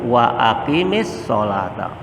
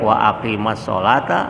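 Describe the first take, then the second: First: Aqim is joined with an i vowel. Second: Aqim is joined with an a vowel. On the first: The speaker calls it right. "kalau kita sambung" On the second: The speaker calls it wrong. "nggak boleh"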